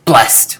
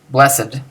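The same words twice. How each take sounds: First: "blessed" as one punched syllable, "blest"; emphasized BLESSED. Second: Said in the usual way. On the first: Shown as a demonstration. Teacher showing how the adjective is not said, emphatic "blessed". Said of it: "not like blessed where you emphasize it". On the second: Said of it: "you don't really emphasize much".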